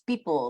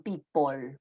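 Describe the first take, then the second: First: The last syllable is a syllabic L. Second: The last syllable has an O vowel. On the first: The speaker calls it right. "it's people with syllabicity" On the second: The speaker calls it wrong. "with the O sound in pot"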